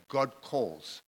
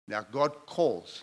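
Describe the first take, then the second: First: Said in the usual way. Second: "God" slow and weighty, stressed on "God"; slow emphatic stress. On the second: Shown as a demonstration. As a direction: lean hard on "God", drawn out. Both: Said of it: "Notice what I'm saying".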